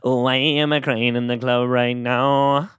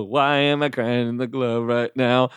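First: Slow sing-song title ending in a fake sob; hammed-up tearful jingle, breaking at the end; mock crying jingle. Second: Giggling as the title comes out; can't keep a straight face singing it; laughing through the jingle. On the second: Real, not acted. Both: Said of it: "that was me crying at the end".

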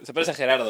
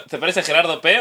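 First: Said in the usual way. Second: "Gerardo P" with the final P said on the end; con la P final. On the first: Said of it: "o has dicho". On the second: Shown as a demonstration. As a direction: add a separate "P" after "Gerardo". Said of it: "Has dicho". ("Gerardo P", con la P al final)

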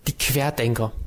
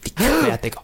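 First: Said in the usual way. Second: High, dramatic "Die Querdenker"; dramatic mock horror. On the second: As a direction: ham up the horror. Repeats phrase dramatically.

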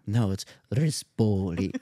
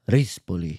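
First: Rispoli said the speaker's own way, slow and firm; arguing back with the Italian man over Rispoli; own pronunciation. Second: Rispoli said the Italian way, mild imitation of the Italian man; the Italian man correcting how Rispoli is said; Italian pronunciation. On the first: Retold or imitated. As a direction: insist on Rispoli as you always say it, slowly. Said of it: "And I was like". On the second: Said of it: "No, you say it".

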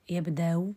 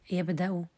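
First: يبدأ with hamza softened into a faint u; tashil with rawm. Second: يبدأ with a clear glottal stop and final u; full hamza. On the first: Teacher applies the rule, eased hamza with faint final vowel. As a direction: say يبدأ as "yabda-u", no hard glottal stop. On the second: Teacher cites the example before softening, full hamza. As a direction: say يبدأ as "yabda'u", hamza fully sounded. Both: Shown as a demonstration. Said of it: "نسهل الهمزة بالروم".

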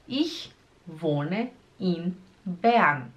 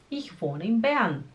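First: ICH, WOHNE, IN, BERN, each set apart; very slow "Ich wohne in Bern", pausing between words. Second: Said in the usual way. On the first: Shown as a demonstration. Teacher breaking the sentence down for learners, slowly.

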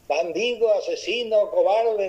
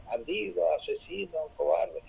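First: Yelled insults. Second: Softer faded repeat of the insults like an echo; the cave echoes the boy's insults back, softer. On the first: Boy yells insults into cave. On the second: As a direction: give the words back quieter, as a distant cave echo. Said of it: "y el eco le decía". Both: Retold or imitated.

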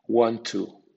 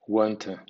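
First: "want to" with a clear full "to" vowel. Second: "want to" with a reduced "tə"; weak to. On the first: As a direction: say "to" fully, as "too". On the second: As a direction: soften "to" to a quick schwa. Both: Shown as a demonstration. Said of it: "con acento medio o con acento débil".

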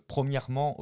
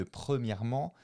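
First: "premièrement" with an o-like first vowel, "promièrement"; regional mispronunciation. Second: Said in the usual way. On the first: Shown as a demonstration. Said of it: "mon accent français n'est pas bon". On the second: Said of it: "au lieu de premièrement".

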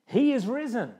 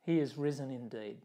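First: High, loud proclamation; ringing Easter shout; Easter call. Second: Said in the usual way. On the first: Real, not acted. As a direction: call it out to the congregation.

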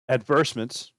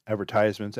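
First: Advertisements said as ad-VER-tis-ments; British pronunciation. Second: Advertisements said as ad-ver-TIZE-ments; American pronunciation. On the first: Offering viewers both pronunciations, advertisements as ad-VER-tis-ments. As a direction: say advertisements with a short "tis", no "tize". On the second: Offering viewers both pronunciations, advertisements as ad-ver-TIZE-ments. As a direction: say advertisements with a long "tize" syllable. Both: Shown as a demonstration. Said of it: "whatever you wanna call it".

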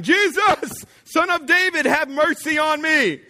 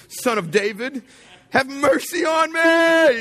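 First: High, loud cry for mercy; shouting. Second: Drawn-out, very high, loud yell; shouting louder. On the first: Blind beggar calls to Jesus passing by, shouting. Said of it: "So he began shouting". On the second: Blind beggar refuses to be hushed, shouting louder. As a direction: bellow the plea, stretching the words high. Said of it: "shouted louder". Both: Acted.

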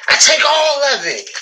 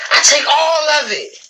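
Both takes have the same delivery.

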